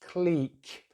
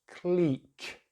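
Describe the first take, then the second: First: The vowel is a long E, British-style. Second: The vowel is a long E, British-style.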